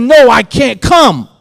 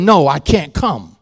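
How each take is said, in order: First: Higher, louder, slower cry of no; shouted refusal. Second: Said in the usual way. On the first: Retold or imitated. Refusing the dead stepmother in a dream, shouted. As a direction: refuse her with full force.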